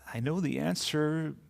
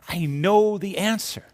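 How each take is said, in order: First: The voice sounds confused and lost. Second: The voice sounds delighted and excited. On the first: The speaker feels lost. "Or the feeling of being lost" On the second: The speaker has just discovered the answer. "It can express the joy of discovery"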